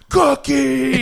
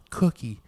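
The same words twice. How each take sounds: First: It is screamed loudly. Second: It is said at a normal volume.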